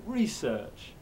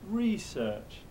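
First: It has the American English stress pattern. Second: It has the American English stress pattern.

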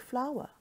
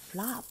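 First: The word is said as 'flower' and rhymes with 'power'. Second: The word is said as a short 'fla' that does not rhyme with 'power'. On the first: The speaker calls it right. "The correct pronunciation for this word is actually flower, just like in the plant" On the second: The speaker calls it wrong. "In Singapore, we always call this word fla"

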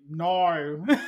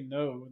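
First: The vowel is drawn out in an Australian accent. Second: The vowel is plain, without an Australian accent. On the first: "They say no" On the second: "they don't say no"

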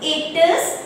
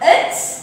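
First: Both words are said separately in full. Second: The words are run together as one shortened word.

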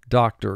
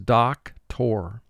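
First: The last syllable is reduced and weak. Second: The last syllable is fully pronounced as tor.

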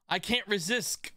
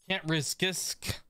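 First: The last word sounds like normal 'resist'. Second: The last word sounds like 'risk-isk'. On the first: The speaker calls it right. "You gotta say it like that" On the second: The speaker calls it wrong. "That sounds so freaking bad"

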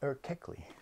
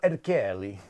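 First: The name is said with a Turkish pronunciation. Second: The name is said with an Italian-sounding pronunciation. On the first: The speaker calls it right. "This is Ali Erkekli" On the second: The speaker calls it wrong. "I was giving it an Italian sort of vibe"

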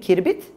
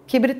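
First: The r comes before the b. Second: The b comes before the r. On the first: The speaker calls it wrong. "Kirbit, kibrit olmasın" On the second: The speaker calls it right. "kibrit olmasın"

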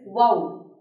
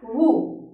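First: The vowel sounds like oh. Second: The vowel sounds like oo. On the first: The speaker calls it right. "The correct pronunciation is wow" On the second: The speaker calls it wrong. "You would say it as woo, which is a wrong pronunciation"

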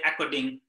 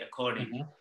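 First: The double-c sound is short and clipped. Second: The double-c sound is held longer. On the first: The speaker calls it wrong. "if you say according, it doesn't reflect that that double C" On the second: The speaker calls it right. "you have to drag that a little bit further"

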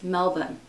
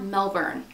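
First: The word is said without a hard R sound. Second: The word is said with a hard R sound. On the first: The speaker calls it right. "Apparently it's Melbourne, like that's how they pronounce it in Australia" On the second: The speaker calls it wrong. "It's not Melbourne, like there's not a hard R"

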